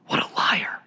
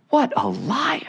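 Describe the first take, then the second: First: Whispered aghast aside. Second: High, soft, incredulous exclamation. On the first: Preacher repeating his verdict on Satan, whispered. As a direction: drop to a voiceless whisper of disbelief. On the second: Preacher reacting to Satan's great lie, incredulous. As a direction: pitch it way up in hushed disbelief. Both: Real, not acted.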